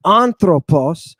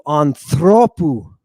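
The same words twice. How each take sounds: First: Anthropos with the accent on the first syllable, AN; stress on first syllable. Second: Anthropu with the accent moved onto THRO; stress on middle syllable. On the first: Teacher shows where the accent starts, anthropos stressed at the front. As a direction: hit the opening alpha of anthropos. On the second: Teacher shows the accent jump in the genitive, anthropu stressed on THRO. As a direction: lean long on the omega in anthropu. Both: Shown as a demonstration. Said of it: "The accent jumps to the omega".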